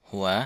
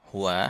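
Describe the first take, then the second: No difference in how they are said.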